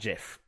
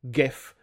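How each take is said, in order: First: The word begins with a soft G sound. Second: The word begins with a hard G sound. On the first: The speaker calls it wrong. "not GIF" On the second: The speaker calls it right. "the word graphics begins with a hard G, ... Therefore, it should be pronounced GIF"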